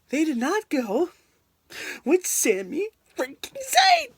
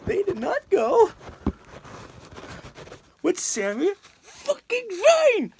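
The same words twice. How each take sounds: First: Rising exasperated complaint, pitch climbing; building frustration; indignant. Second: Higher and slower, outraged near-yell; real angry outburst. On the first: Fan ranting at WWE over the Rumble winner, rising indignant complaint. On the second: Fan furious at WWE for snubbing Sami Zayn, real outraged near-yell. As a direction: let the outrage boil over. Ranting about Royal Rumble pick. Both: Real, not acted.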